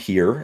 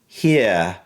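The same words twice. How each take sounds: First: The final R is pronounced strongly. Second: The final R is very light. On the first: "for us, that's the opposite" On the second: "you do have an R sound, but it's very light"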